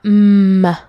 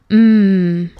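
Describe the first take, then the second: First: An m sound followed by a short uh vowel. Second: A plain held m sound with no vowel after. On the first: The speaker calls it wrong. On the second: The speaker calls it right.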